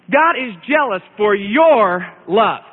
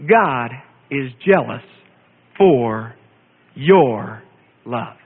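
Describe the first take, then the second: First: Slow, with "your" weighted and falling; stress on YOUR. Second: Slow, with a pause before each word. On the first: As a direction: lean hard on "your" in "God is jealous for your love". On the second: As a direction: lay out "God is jealous for your love" one word at a time, very slowly. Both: Shown as a demonstration. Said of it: "emphasize the word your".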